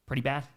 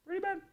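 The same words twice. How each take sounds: First: Said in the usual way. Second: Tiny high squeak, softer; very high pitch. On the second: Real, not acted. Streamer judging a lopsided Vikings loss, very high and small.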